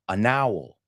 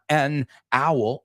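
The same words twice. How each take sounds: First: The n links onto the next word. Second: The two words are said separately. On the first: The speaker calls it right. "it's an owl" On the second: The speaker calls it wrong. "it's not an owl"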